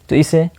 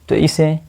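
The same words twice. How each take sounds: The two takes are said the same way.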